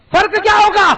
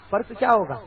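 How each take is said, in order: First: Loud, high rhetorical cry; shouted question. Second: Said in the usual way. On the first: Acted. Preacher challenging the congregation, shouting the question. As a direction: fling the question at the crowd.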